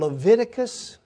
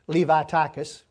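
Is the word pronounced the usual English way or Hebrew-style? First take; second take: English; Hebrew-style. First: The word is pronounced the usual English way. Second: The word is pronounced in a Hebrew-like way.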